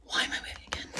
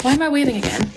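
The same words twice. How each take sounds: First: Unvoiced-breath whisper to oneself. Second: Said in the usual way. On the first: Real, not acted. Streamer puzzling to herself why she is waving, whispered. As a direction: whisper it, far softer. Repeats own question under breath.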